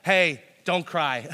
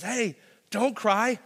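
First: Loud, slow, offhand "Hey, don't cry"; mock dismissive. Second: Slow, high, gentle "Hey, don't cry"; drawn-out soothing plea; soft comfort. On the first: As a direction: brush the pain off, mockingly. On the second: Retold or imitated. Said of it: "and says".

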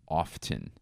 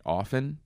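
First: "Often" said firmly with the t sounded, /ɑftən/, falling; "Often" pronounced with a clear t, flat and final. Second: "Often" asked with a rise; "Often" said with a questioning rising tune. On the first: Proving a point to listeners, "Often" with a pronounced t. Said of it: "When I'm being a bitch ... I say often". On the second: Asking listeners how to say often, rising question. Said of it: "How do you say it?". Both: Shown as a demonstration.

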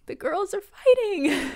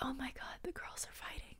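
First: High, slow sing-song delight; excited. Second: Hushed gossipy whisper. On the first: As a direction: announce the drama with glee. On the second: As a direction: whisper it like spotting juicy drama. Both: Retold or imitated. Gossipy aside about fight.

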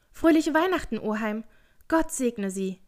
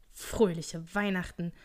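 First: High, loud merry greeting; cheerful call. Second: Slow, drawn-out mocking greeting; sour, sceptical old grump; scornful echo. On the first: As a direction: call out brightly in high spirits. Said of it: "rief eine muntere Stimme". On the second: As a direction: repeat it slowly with disdain. Scrooge scoffs at the greeting. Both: A narrator's reading.

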